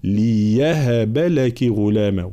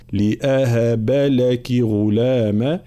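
First: Slow ليهب with a ya; slow ليهب, ya clear; ya reading. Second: Slow لأهب with a clear glottal stop; slow لأهب, hamza clear; hamza reading. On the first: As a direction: say ليهب with a ya, no hamza. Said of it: "الوجه الثاني بالياء". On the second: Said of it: "الوجه الأول هو قراءتها بالهمزة". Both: Shown as a demonstration.

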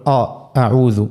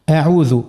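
First: أعوذ opened on a thick, dark آ; back, heavy first vowel in أعوذ; wrongly heavy hamza. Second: أعوذ opened on a thin, fronted "ae"; correct light hamza. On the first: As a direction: demonstrate the common error, over-emphatic start of أعوذ. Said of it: "خطأ زاد شائع نسمعوه". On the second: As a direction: keep the first sound of أعوذ light. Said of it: "خطأ زاد شائع". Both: Shown as a demonstration.

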